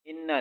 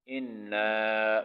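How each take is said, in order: First: इन्ना with a clipped short ending; इन्ना, short final a; short wrong vowel. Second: इन्ना slow, final a held one alif; इन्ना with a drawn-out a; lengthened vowel. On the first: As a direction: rush इन्ना without lengthening. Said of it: "इन्ना नहीं पढ़ना". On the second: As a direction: stretch the end of इन्ना. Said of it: "एक अलिफ के बराबर लंबा करना है". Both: Shown as a demonstration.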